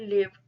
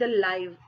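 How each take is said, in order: First: The vowel is a short 'ih' sound. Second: The vowel is a long 'eye' sound. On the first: "मैं यहाँ पर इसको लिव बोल रही हूँ" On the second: "मैं इसको यहाँ पर लाइव बोल रही हूँ"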